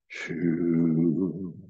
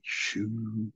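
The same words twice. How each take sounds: First: It is sounded at a low pitch. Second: It is sounded at a high pitch. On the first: "a deeper tone, down in your body" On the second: "use a head tone which is high"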